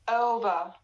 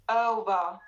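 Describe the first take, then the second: First: The first vowel starts unrounded, then rounds. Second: The first vowel starts unrounded, then rounds.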